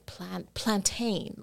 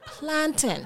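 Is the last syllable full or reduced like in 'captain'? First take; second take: full; reduced. First: The last syllable is full, not reduced. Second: The last syllable is reduced, like in 'captain'. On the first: The speaker calls it wrong. "why do they always say plantain? We don't say that" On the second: The speaker calls it right. "It's captain, mountain, plantain"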